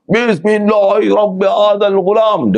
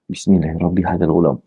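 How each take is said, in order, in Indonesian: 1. Frasa itu diserukan dengan lantang. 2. Frasa itu diucapkan pelan, hampir berbisik. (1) "kena laung kuat supaya dengar semua" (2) "Dia baca pelan mulanya"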